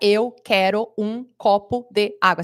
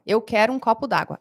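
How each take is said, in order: First: 'De' and 'água' are said as separate words. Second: 'De' and 'água' merge into one word. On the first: Nobody says it this way in everyday speech. The speaker calls it wrong. "A gente não fala" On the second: This is how people really say it. The speaker calls it right. "É isso que a gente fala"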